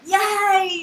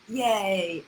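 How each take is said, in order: First: It is said with full, excited joy. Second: It is said in a held-back, subdued way.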